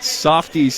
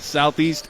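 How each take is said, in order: First: The word is said with an 'f' sound. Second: The word is said with a 'th' sound. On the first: The speaker calls it wrong. "not Softeast, as you've been known to say" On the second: The speaker calls it right. "Southeast, not Softeast"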